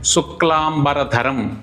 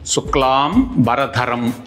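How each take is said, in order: First: It is said as one unbroken word. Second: It is split into two parts with a break. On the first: The speaker calls it right. "ఒక్కటే పదంగా పలకడమే సరైనటువంటిది" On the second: The speaker calls it wrong. "విడదీసి పలకడం తప్పు"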